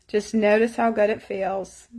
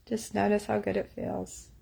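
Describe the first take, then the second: First: Said in the usual way. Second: Softer, hushed guiding repeat. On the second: Shown as a demonstration. Tapping coach softly guiding viewers into a good memory. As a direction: let it fade to a gentle hush.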